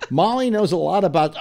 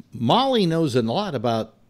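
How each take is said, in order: First: Higher, strained retake of the copy; re-enacted read on the edge of breaking; about to crack up. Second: Said in the usual way. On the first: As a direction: try again, barely holding it together. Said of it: "I just broke up completely". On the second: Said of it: "and it reads".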